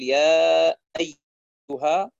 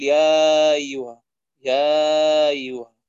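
First: Long يا, then a firm glottal stop starting أيها; full hamza. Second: Long drawn يا gliding into أيها without a stop; softened hamza. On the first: Teacher showing correct recitation, يا أيها with a full hamza. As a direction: cut أيها cleanly off from يا with a hamza. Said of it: "يجب أن يحقق الهمزة هنا". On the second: Teacher showing a mistake, يا أيها with the hamza softened. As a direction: slur يا أيها together, slow and drawn out. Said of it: "يسهلها، يقول". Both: Shown as a demonstration.

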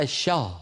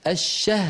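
First: الشاه said with a thick long aa; wrong heavy ha. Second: الشه said with a light ha; the teacher's correction; thin ha. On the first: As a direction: stretch الشه into shaah. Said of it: "ولا تقولي الشاه". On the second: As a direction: keep the ha of الشهر thin, no heavy aa. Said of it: "رقق الهاء". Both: Shown as a demonstration.

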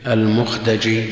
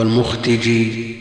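First: المختجي with an "a" after the ت: al-mukhtaji; al-mukhtaji, fatha reading of المختجي; fatha on the dal. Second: المختجي with an "i" after the ت: al-mukhtiji; al-mukhtiji, kasra reading of المختجي; kasra on the dal. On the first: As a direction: say المختجي as al-mukhtaji, open vowel before the j. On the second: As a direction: say المختجي as al-mukhtiji, "i" vowel before the j. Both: Shown as a demonstration. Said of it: "بفتح الدال وكسرها".

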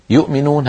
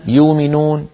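First: "يؤمنون" as yu'minūn, with a glottal catch after yu; sounded hamza. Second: "يؤمنون" as yūminūn, long ū replacing the hamza; dropped hamza. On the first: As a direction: stop briefly on the hamza in "يؤمنون". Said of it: "سواء كانت الهمزة ساكنة". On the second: Teacher giving the Quraysh reading, "يؤمنون" without hamza. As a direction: glide through "يؤمنون" with no glottal catch. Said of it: "يبدلون الهمزات الساكنة". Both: Shown as a demonstration.

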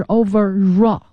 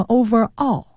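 First: Overall linked as "over-RAW". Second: Overall split as "over; unlinked words. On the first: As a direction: glide from over into all with an r in overall. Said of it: "它要连在一起读". (overall 连读成 over-raw) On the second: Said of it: "有同学念成overall". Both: Shown as a demonstration.

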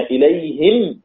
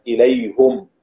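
First: إليهم as "ilayhim", ending on a closed m; kasra on haa. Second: إليهم as "ilayhum", ending on a closed m; damma on haa. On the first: Teacher models most readers' stop on إليهم, "ilayhim" with kasra. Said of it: "الجميع إليهم ما عدا حمزة". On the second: Teacher models Hamza's stop on إليهم, "ilayhum" with damma. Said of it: "ما عدا حمزة". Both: Shown as a demonstration.

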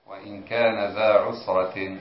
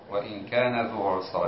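First: كان ذا with a long aa vowel on ذا; corrected ending. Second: كان ذو with a long oo vowel on ذو; misread ending. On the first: Student rereading after the teacher's correction, corrected ذا. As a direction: read ذا as "dhaa", not "dhoo". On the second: Student reading the text to the teacher, misread ذو. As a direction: read ذو with "dhoo" instead of "dhaa". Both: Shown as a demonstration. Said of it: "قلت ذو".

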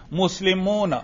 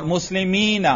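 First: مسلمون with the moo held long, ending na; raf' with waw. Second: مسلمین slowly, with a long mee and final na; ya form. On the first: Teacher quizzing which i'rab he read, long waw. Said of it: "میں نے کون سا اعراب پڑھا؟". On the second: Teacher contrasting nasb or jarr form, long ya. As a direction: draw out the ya in مسلمین. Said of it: "یہ منصوب یا مجرور ہے". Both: Shown as a demonstration.

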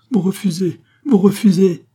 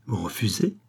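First: High, mounting cry of disbelief; aghast outcry. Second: Questioning disbelief. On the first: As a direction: repeat it louder, appalled by the refusal. Queen aghast at king's refusal. (cri indigné, de plus en plus fort) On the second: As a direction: ask it softly, taken aback. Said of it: "s'écria la reine". (question incrédule, dite sans crier) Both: A narrator's reading.

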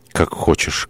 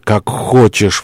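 First: Subdued first take. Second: Higher, impassioned surrender; exclaiming. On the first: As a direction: give in almost under the breath. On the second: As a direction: give in with an outcry. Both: Acted. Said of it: "воскликнул он".

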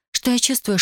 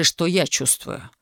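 First: Pleading Tatiana. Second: Lightly voiced husband, slow mocking echo. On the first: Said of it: "Она умоляюще протянула к нему руки". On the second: Husband mockingly echoes her words. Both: A narrator's reading.

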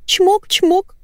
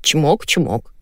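First: Very high cooing kisses; burbling coo. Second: Husband's reply. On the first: Wife sending kisses to her dog, cooing. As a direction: send spoken kisses in high baby talk. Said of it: "журчала Валентина". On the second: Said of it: "ответил Николай". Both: A narrator's reading.

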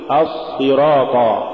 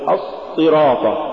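First: Said in the usual way. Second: الصراط with the ص stopped short; cut-off sad. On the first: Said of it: "قل". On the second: Shown as a demonstration. Teacher warning against an error, cut-off ص in الصراط. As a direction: choke off the doubled ص in الصراط. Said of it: "ولا تقل".

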